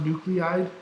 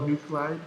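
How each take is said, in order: First: "nuclide" as three syllables, NOO-klee-ide; common pronunciation. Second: "nuclide" as two syllables, NOO-klide; spelling pronunciation. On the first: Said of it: "it's often pronounced nuclide". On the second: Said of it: "but it's spelled nuclide". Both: Shown as a demonstration.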